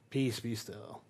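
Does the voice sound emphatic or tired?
tired. It is said wearily and with little energy.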